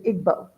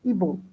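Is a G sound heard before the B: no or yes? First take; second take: yes; no. First: A G sound is heard before the B. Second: No G sound is heard before the B. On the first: The speaker calls it wrong. "it phonetically, it looks like Igbo" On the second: The speaker calls it right. "the G doesn't get sounded"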